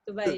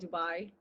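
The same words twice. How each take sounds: First: The final syllable is short and sounds like 'may'. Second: The final syllable is long and sounds like 'my'. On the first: This is how it is said in Arabic. "I think that's the Arabic way" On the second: This is how many Americans say it. "A lot of like Americans say Dubai"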